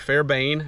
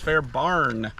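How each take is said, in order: First: The second syllable sounds like 'bane'. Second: The second syllable sounds like 'barn'. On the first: The speaker calls it wrong. "I always want to say Fairbane" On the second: The speaker calls it right. "no, it's Fair Barn, I think"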